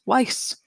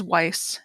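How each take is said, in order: First: "Weiss" echoed back with a questioning rise; Brad repeats. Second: "Weiss" said low and soft, a timid fix; sheepish correction. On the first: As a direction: parrot the name back, rising. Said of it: "And then Brad says". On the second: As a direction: quietly correct him: "Weiss". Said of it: "Janet sheepishly corrects him". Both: Retold or imitated.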